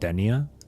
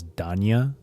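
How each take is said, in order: First: The first syllable sounds like 'den'. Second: The first syllable sounds like 'dahn'. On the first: The speaker calls it wrong. "not Denia" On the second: The speaker calls it right. "her name is pronounced as Danya"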